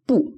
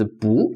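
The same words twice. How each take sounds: First: BU high and falling sharply; fourth tone. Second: BU rising like a question; second tone. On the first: Teacher pronouncing the syllable alone, BU in falling fourth tone. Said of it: "fourth tone". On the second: Teacher explaining tone change, BU in rising second tone. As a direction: say BU with the pitch sliding upward. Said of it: "bu second tone". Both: Shown as a demonstration.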